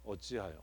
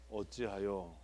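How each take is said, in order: First: Hushed lament reading. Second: Soft, mournful 어찌하여 falling away; hushed lament reading. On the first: Teacher demos the wrong way to read a psalm, mournful and hushed. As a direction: sigh 어찌하여 out like a dirge. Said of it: "이게 안 좋은 방법이라고". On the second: Teacher shows the textbook way to start, softly mournful. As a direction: breathe 어찌하여 like a sad dirge. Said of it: "이렇게 하면 안 되는 방법으로". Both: Shown as a demonstration.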